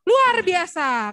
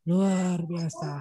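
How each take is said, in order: First: It is said with lively, enthusiastic intonation. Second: It is said flatly, without energy.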